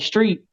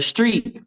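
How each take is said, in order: First: The word is said casually, sounds run together. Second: The word is carefully enunciated, each sound distinct. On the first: "it just sounds I don't know" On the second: "I have to like enunciate it"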